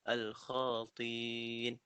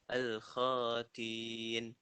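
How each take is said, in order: The two takes are said the same way.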